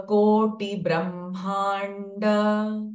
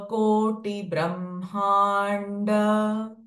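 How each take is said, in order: The two takes are said the same way.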